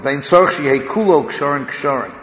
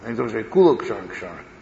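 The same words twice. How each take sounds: First: Kulo carries no special stress. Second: Kulo carries strong stress.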